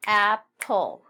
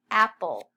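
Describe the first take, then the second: First: Apple as two beats, loud AP, pull; split into syllables. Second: Said in the usual way. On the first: Shown as a demonstration. Teacher snapping the word with class, syllable by syllable. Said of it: "snap it".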